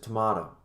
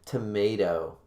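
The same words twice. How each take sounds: First: It is pronounced the British way. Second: It is pronounced the American way. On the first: It corrects the pronunciation. The speaker calls it right. "it's a tomato" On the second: It imitates how his wife says it. The speaker calls it wrong. "She says scallop and all that fucking bullshit. And tomato"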